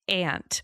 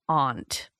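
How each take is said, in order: First: Aunt is said the Southern way. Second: Aunt is said the New England way.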